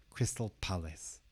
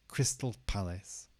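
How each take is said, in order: The two takes are said the same way.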